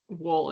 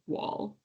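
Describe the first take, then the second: First: The vowel leans toward an 'oh' sound. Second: The vowel is an open 'ah' sound. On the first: The speaker calls it right. "it's wool" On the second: The speaker calls it wrong. "it's not wall"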